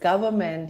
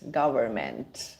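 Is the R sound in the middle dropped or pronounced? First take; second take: dropped; pronounced. First: The middle R sound is dropped. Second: The middle R sound is clearly pronounced. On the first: The speaker calls it wrong. "instead of saying government" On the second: The speaker calls it right. "So just roll the R"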